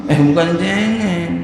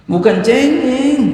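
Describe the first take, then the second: First: Said in the usual way. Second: "Bukan cengeng" flung out much higher and louder, rising on "cengeng"; emphatic denial. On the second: Shown as a demonstration. Preacher correcting the congregation, high emphatic denial. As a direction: insist sharply: not whiny at all.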